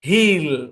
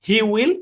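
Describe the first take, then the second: First: It is said as one short contracted syllable. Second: It is said as two separate full words. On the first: "এটার construction হচ্ছে হি apostrophe double L" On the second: "এটা হচ্ছে আমার মূল form"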